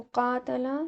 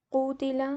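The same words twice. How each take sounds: First: कातला with long "aa" first and plain "ta"; active form kaatala. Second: कूतिला with long "oo" then "ti"; passive form kootila. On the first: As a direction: say कातला as kaa-ta-la with an open vowel. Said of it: "कूतिला he was fought". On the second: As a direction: say कूतिला as koo-ti-la, lips rounded. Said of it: "ये बन जाएगा कूतिला". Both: Shown as a demonstration.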